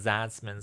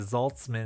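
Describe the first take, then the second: First: The first syllable is said without an L sound. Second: The first syllable is said with an L sound. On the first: The speaker calls it right. "instead of Zatzman" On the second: The speaker calls it wrong. "a lot of people would say Zoltzman"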